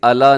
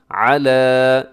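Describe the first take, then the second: First: Quick अला with a plain "a" and no throat sound; flattened ain in अला; wrong plain vowel. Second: Slow Arabic ain on अला; correct throaty ain. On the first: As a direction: say अला as in everyday Urdu. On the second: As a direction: draw out अला from a squeezed throat. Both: Shown as a demonstration. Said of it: "इसे अला नहीं पढ़ना".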